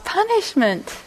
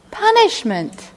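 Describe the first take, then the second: First: High, stressed "punishment"; emphatic confirmation. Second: High, slow disbelieving echo; incredulous repeat. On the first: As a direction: confirm it with raised pitch. Confirming shocking definition. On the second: Repeating shocking definition. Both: Real, not acted.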